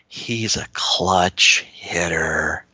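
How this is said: It is said in a dreamy, admiring tone. The player is admired almost like a superhero. "they got that dreamy look in their eyes and they said it like that"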